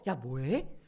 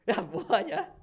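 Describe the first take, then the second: First: It is said as a genuinely curious question. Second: It is said in a mocking, sneering tone.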